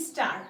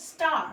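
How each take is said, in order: First: স্টার with an "i" slipped in before it, "i-star"; mispronounced স্টার. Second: স্টার starting straight on the s, "star"; correctly pronounced স্টার. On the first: Teacher mimicking learners' common mistake, mispronounced স্টার as "i-star". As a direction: say স্টার badly as "istar", extra vowel in front. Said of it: "বাজেভাবে উচ্চারণ করে". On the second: Teacher modelling it for learners, স্টার as a clean "star". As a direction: say স্টার with no vowel before the "st". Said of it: "এটাকে বলবো হচ্ছে". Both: Shown as a demonstration.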